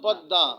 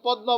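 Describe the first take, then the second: First: The middle consonant is said doubled. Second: The middle consonant is said single, not doubled. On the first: The speaker calls it right. "হবে কি? পদ্মা" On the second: The speaker calls it wrong. "অনেকে পদ্মা বলে"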